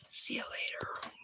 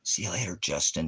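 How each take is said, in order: First: Soft whispered goodbye. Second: Said in the usual way. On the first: Real, not acted. Streamer dismissing a viewer, whisper. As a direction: breathe the farewell with no voice.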